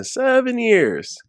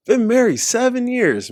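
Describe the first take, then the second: First: "Seven years" slow and high, stunned; emphatic disbelief. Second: Said in the usual way. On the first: Real, not acted. Host reacting to the date story, stunned emphasis. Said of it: "host repeats in disbelief". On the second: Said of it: "host's own disbelief".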